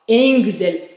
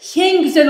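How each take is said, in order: First: The first word begins with a plain vowel. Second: The first word begins with an h sound. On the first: The speaker calls it right. "sen oraya hı'yı koymayacaksın" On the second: The speaker calls it wrong. "Hen güzel olmaz"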